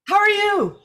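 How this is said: It is said with lots of tone.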